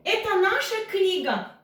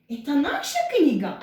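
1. Düz anlatım tonlamasıyla söyleniyor. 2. Soru tonlamasıyla söyleniyor. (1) "bu bizim kitabımız" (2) "bu bizim kitabımız mı?"

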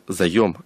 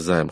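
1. Слово произносится в два слога. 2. Слово произносится в один слог. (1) "правильно говорить заем" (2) "а не займ"

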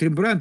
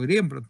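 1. Имя произносится обычным русским способом. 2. Имя произносится так, как его слышат за границей. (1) "По-русски говорят Рембрандт" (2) "а там я слышал Рембрандт"

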